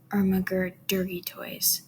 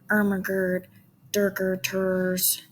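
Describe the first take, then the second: First: The vowels are said in a normal speaking voice. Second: The vowels are distorted into a meme-style 'er' sound. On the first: "that's still staying in your same voice" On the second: "which is usually what we would do for the Ermagerd language"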